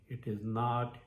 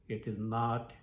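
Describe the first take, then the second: No difference in how they are said.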